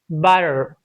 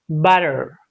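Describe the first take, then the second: No difference in how they are said.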